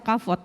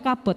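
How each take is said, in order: First: The middle consonant is a V sound. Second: The middle consonant is a B sound. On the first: "tapi ada yang membaca kavot. Mungkin yang benar kavot" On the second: "Saya kalau bacanya kabot"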